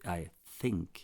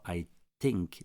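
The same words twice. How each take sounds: First: Think starts with the English th sound. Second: Think starts with a plain non-th sound. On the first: The speaker calls it right. "c'est I think. Parce qu'il y a un T et un H" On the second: The speaker calls it wrong. "C'est pas I think"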